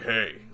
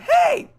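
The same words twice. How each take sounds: First: It is said in a low, deep voice. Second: It is said in a high-pitched voice. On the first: "low is like" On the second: "now high is uh"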